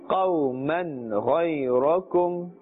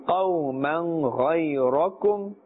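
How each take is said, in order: Both takes have the same delivery.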